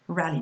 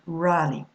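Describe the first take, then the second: First: The first vowel is short. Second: The first vowel is long. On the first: The speaker calls it right. "It's going to be a short sound" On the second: The speaker calls it wrong. "not rally"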